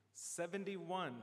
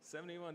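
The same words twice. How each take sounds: First: Slow, drawn-out number call; raffle caller. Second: Said in the usual way. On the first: Real, not acted. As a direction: stretch the number out for the room. Calling raffle number at meeting.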